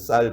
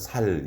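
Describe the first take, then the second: First: The word begins with a tense s sound. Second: The word begins with a plain s sound. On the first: The speaker calls it right. "우리는 쌀 그렇게 쉽게 말하는데" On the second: The speaker calls it wrong. "살 이렇게 발음하고 하잖아요"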